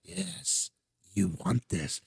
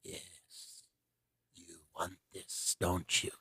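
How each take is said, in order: First: Lightly voiced hushed Palpatine; a hint of a tempting Sith whisper; tempting devilish whisper. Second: Low, hushed Emperor Palpatine hiss; tempting devilish whisper. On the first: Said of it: "He goes". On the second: Retold or imitated. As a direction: whisper it like a tempting Sith lord. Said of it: "Palpatine is sitting there and he goes".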